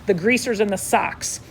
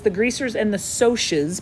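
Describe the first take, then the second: First: The c in Socs is a hard sound. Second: The c in Socs is a soft sound. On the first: The speaker calls it wrong. "A lot of people want to read the book and say" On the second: The speaker calls it right. "Soft C sound"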